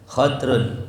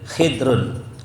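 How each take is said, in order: First: First vowel a, no vowel after the d. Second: First vowel i, no vowel after the d. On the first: "Boleh juga disukunin dotnya khadrun" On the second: "Ma'a kasrul kha khidir"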